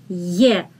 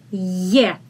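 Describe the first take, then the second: First: It starts with a soft 'y' sound. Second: It starts with a soft 'y' sound.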